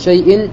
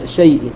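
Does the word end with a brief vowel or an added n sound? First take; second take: n sound; brief vowel. First: The word ends with an added n sound. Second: The word ends with a brief i vowel. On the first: The speaker calls it wrong. "لا يقول شيء" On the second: The speaker calls it right. "ولكن يقول شيء بكسرة واحدة"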